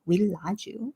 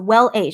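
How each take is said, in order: First: The name is said with Korean pronunciation. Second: The name is said with English pronunciation. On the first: "in Korean it's Willaju" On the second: "I'll just say it the English way"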